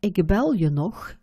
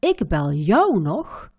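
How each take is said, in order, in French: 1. Le pronom est prononcé légèrement, sans accent. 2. Le pronom est prononcé avec un accent fort. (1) "avec une intonation neutre ou normale"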